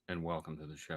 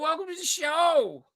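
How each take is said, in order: First: It is said in a deep, fancy voice. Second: It is said in a light, casual voice.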